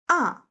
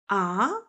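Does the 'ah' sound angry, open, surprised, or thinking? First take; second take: angry; surprised. First: The pitch falls down sharply, sounding angry. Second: It sounds surprised, like asking what. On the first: The speaker is refusing. "angry sound" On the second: The speaker is surprised. "Surprising sound"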